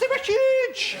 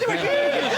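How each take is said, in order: First: It is said in a put-on, odd voice. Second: It is said in his normal voice.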